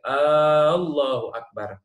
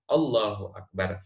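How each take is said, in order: First: The opening vowel of Allah is drawn out long. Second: The opening vowel of Allah is kept short. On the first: It becomes a question doubting that God is great. The speaker calls it wrong. "Nggak boleh" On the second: It states that God is great. The speaker calls it right. "Allah harus pendek"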